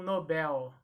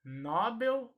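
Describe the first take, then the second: First: "Nobel" as no-BEL, slow; slow demonstration of "Nobel" stressed at the end; stress on last syllable. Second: "Nobel" as NO-bel, slow; slow demonstration of "Nobel" stressed at the front; stress on first syllable. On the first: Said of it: "a sílaba tônica será a última". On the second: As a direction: punch NO in "Nobel". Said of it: "Eu vou pronunciar". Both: Shown as a demonstration.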